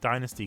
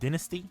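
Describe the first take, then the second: First: It is said the American way. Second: It is said the British way. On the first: "but I say Dynasty because all of the promotional material were from the U S" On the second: "in the U K we pronounce it Dynasty"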